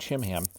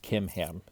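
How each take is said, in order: First: The name begins with a ch sound. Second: The name begins with a k sound. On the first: "the C H sound" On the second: "It's probably pronounced Kimham"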